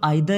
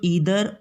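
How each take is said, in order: First: The first vowel sounds like 'eye'. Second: The first vowel sounds like 'ee'. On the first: "ये British accent है" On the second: "ये American accent है"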